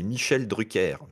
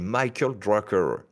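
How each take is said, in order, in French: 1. Le nom se prononce à la française. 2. Le nom se prononce à l'anglaise.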